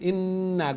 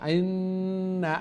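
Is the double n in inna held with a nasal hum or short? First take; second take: short; held. First: The double n is clipped short without nasal hum. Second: The double n is held with a nasal hum. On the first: The speaker calls it wrong. "না শর্ট ইন্না" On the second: The speaker calls it right. "গুন্না হইব না নাকি সুরে"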